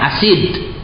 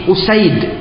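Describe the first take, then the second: First: The name begins with an a vowel. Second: The name begins with a u vowel. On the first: The speaker calls it wrong. "bukan asid ya" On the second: The speaker calls it right. "tapi Usaid bi dhammil hamzah"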